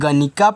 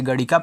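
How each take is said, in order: First: The middle consonant is an 'n' sound. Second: The middle consonant is a flapped 'r' sound. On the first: "यन से ना भी बनता है" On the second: "यन से अड़ा भी बनता है"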